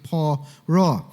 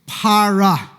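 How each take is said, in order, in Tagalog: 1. Parang 'oh' ang tunog ng mga patinig. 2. Parang 'ah' ang tunog ng mga patinig. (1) "yung pronunciation, ... parang poro, ... rather than para, kundi poro" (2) "the word used is para"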